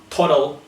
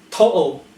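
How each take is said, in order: First: "total" as "toh-dal"; tongue the middle T of "total"; sounded T. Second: "Total" as "to'al"; throat catch inside "Total"; glottal T. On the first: Teacher showing what to avoid, "total" with T sounded. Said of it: "not total". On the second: Teacher giving an example, "Total" with a glottal stop. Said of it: "glottal T". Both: Shown as a demonstration.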